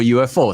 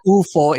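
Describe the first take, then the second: First: U F O said letter by letter, "you-eff-oh"; U F O as three separate letters; spelled out. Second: Ufo said Italian-style as "OO-fo"; read as one word. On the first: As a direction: spell out U F O in English letter names. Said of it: "instead of U F O". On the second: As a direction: say ufo as a word, not as letters. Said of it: "ufo instead of U F O". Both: Shown as a demonstration.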